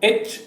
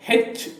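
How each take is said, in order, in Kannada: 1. ಅಕ್ಷರದ ಹೆಸರು ಸ್ವರ ಧ್ವನಿಯಿಂದ ಆರಂಭವಾಗುತ್ತದೆ. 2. ಅಕ್ಷರದ ಹೆಸರು H ಧ್ವನಿಯಿಂದ ಆರಂಭವಾಗುತ್ತದೆ. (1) "ಅದು ಎಚ್ ಓ ಯು ಆರ್" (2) "ನಾವು ಹೆಚ್ ಓ ಯು ಆರ್ ಅಂತ ಹೇಳಬಾರ್ದು"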